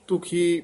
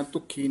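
First: ਤੁਖੀ with a light single kh; ਤੁਖੀ said loosely, no doubled ਖ; soft consonant. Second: ਤੁਖੀ wrongly tightened to tuk-khi; ਤੁਖੀ with a hard, held kh; mispronunciation demo. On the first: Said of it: "ਪੋਲਾ ਹੀ ਉਚਾਰਨ ਕਰਨਾ". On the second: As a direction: double the ਖ in ਤੁਖੀ. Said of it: "ਤੁਖੀ ਨਹੀਂ ਕਹਿਣਾ". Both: Shown as a demonstration.

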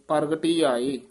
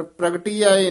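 First: ਪ੍ਰਗਟੀ with a vowel before the r, joined to ਆਏ; ਪ੍ਰਗਟੀ as "pargati". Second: ਪ੍ਰਗਟੀ begun as a pr cluster, no vowel between; ਪ੍ਰਗਟੀ with joined pr. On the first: Teacher showing the reading, ਪ੍ਰਗਟੀ as "pargati". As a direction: say par-ga-ti aae as one unit. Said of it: "ਜਿਹੜਾ ਪਾਠ ਹੈ ਕਰਨਾ ਇਕੱਠਾ". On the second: Teacher showing the mistake, ਪ੍ਰਗਟੀ as "pragti". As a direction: run p and r together in ਪ੍ਰਗਟੀ. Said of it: "ਪ੍ਰਗਟੀ ਆਏ ਨਹੀਂ ਬੋਲਣਾ". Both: Shown as a demonstration.

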